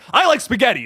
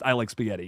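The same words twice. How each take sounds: First: It is said with strong, excited emphasis. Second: It is said in a plain, neutral way. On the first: The speaker feels very strongly about it. "certain inflections in voices can mean one thing or the other" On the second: A simple statement of preference. "you wouldn't get that reaction from just I like spaghetti"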